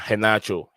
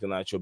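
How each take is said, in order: First: The name begins with a breathy H sound. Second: The name begins with a hard G sound. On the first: The speaker calls it right. "it's pronounced with a H instead" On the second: The speaker calls it wrong. "the name is not pronounced Ganacho"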